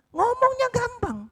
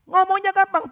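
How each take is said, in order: First: High, slow emphasis on ngomongnya; emphatic. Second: Louder, high ngomongnya gampang; hammered-home ngomongnya gampang; loud emphatic. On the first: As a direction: stretch out ngomongnya slowly and high. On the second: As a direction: punch ngomongnya gampang out to the crowd. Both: Acted. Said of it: "preacher repeats the line".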